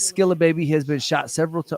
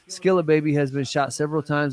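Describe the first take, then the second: First: It is read with lively, excited energy. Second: It is read with calm, subdued energy.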